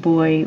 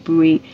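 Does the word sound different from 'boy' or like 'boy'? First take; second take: like boy; different. First: The word sounds exactly like 'boy'. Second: The word does not sound like 'boy'. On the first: "I've always used that pronunciation" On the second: "I'm saying buoy"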